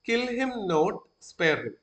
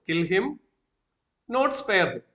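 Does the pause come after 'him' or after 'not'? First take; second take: after not; after him. First: The pause comes after the word 'not'. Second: The pause comes after the first 'him'. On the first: Do not kill him; spare him. "Pose ചെയ്യുന്നത് kill him not, അവിടെ ആ comma വരുന്നെങ്കിലോ" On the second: Kill him and do not spare him. "Kill him എന്ന് പറഞ്ഞിട്ട് ഞാൻ നിർത്തുവോ?"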